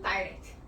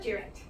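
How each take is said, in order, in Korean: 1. 첫 음절은 'die'처럼 들립니다. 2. 첫 음절은 'dih'처럼 들립니다. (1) "형용사로 쓰면 direct" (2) "동사로 쓰면 direct"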